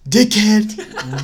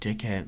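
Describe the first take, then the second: First: It is said very loudly. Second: It is said very quietly.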